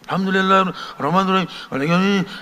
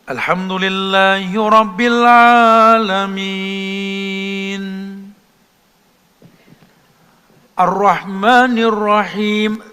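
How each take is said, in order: First: It is recited hastily without pausing between phrases. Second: It is recited calmly with pauses between phrases. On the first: The speaker calls it wrong. "jangan ngepot. ... ya bukan begitu" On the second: The speaker calls it right. "Dahnya tumak ninah"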